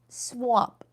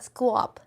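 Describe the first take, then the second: First: The word begins with a plain 'sw' sound. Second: The word begins with a 'skw' sound. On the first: The speaker calls it right. "A deck swap" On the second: The speaker calls it wrong. "not squap"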